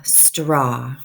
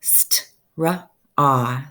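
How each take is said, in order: First: Said in the usual way. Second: St-ra-ah, each sound pulled apart; segmented word. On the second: Shown as a demonstration. Teacher sounding out "St-ra-ah" for young readers. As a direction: break "St-ra-ah" into slow pieces. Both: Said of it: "makes the ah sound".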